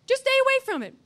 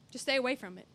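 First: Insistent preacher repeat; emphatic repeat. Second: Said in the usual way. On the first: Shown as a demonstration. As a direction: STAY punched higher and louder. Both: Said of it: "That's good. Write that down".

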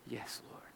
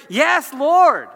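First: Barely audible surrender; reverent whisper. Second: Loud, high, ringing response; emphatic acclaim. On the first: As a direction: breathe the answer in a low whisper. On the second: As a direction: answer with full-voiced conviction. Acts out emphatic answer to God. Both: Acted.

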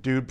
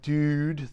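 First: DUDE with the vowel pushed forward in the mouth; California pronunciation. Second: Said in the usual way. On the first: Shown as a demonstration. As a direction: say DUDE Californian-style, fronted oo gliding toward "dyood". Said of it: "Dude probably comes out more like dude". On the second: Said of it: "more like dude than like dude".

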